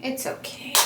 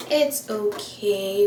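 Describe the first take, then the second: First: Breathed under the breath, toneless; self-soothing whisper. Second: Drawn out slowly, spoken aloud; slow reassurance. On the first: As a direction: whisper it to calm yourself down. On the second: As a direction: slowly talk yourself down. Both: Real, not acted. Consoling herself after mascara smudge.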